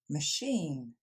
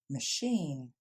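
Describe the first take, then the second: No difference in how they are said.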